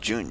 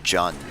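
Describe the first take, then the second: First: The name is said like the word June. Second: The name is said as Jun, unlike June. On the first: The speaker calls it right. "June's name is pronounced June" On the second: The speaker calls it wrong. "I was always pronouncing it like Jun"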